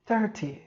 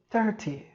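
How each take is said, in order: First: It is said in a British accent. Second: It is said in a British accent.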